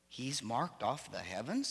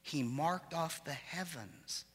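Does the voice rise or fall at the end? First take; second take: rise; fall. First: It is said as a question, rising. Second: It is read as a statement, falling.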